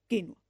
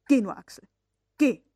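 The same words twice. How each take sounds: First: Said in the usual way. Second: Louder, Geh falling firmly; hard command. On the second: Acted. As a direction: order him off, hard. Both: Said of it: "mit größter Aufregung".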